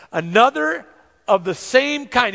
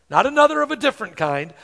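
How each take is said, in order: First: Another and same kind said slower and weighted; stress on another. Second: Said in the usual way. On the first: Shown as a demonstration. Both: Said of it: "underline that word, another".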